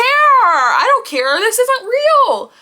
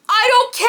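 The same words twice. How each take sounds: First: Slow, loud, stretched-out insistence; drawn-out defiance. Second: High, loud, quick shout; defiant shout. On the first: Still defying the fans, she stretches the words out slow and loud. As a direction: lean on every word and make them wait. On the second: Answering doubting fans, she shouts her defiance high and fast. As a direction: snap it out at the doubters. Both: Real, not acted.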